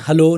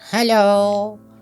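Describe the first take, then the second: First: It is said in his normal pitch. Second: It is said two steps higher in pitch.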